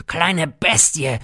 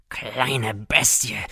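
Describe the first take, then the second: First: "kleine Bestie" higher, louder and slow, bleating; a goat-like mocking bleat, teeth bared; bleating snarl. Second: "kleine Bestie" drawn out slowly, teeth bared; a slow, mocking bleat at the child; slow bleating snarl. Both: A narrator's reading. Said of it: "meckerte er zähnfletschend".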